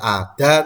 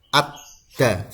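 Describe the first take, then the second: First: The d sound is short and single. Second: The d sound is held and doubled. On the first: The speaker calls it wrong. "Tidak dibaca ada" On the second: The speaker calls it right. "tapi ad-da"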